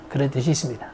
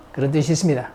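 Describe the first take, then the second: No difference in how they are said.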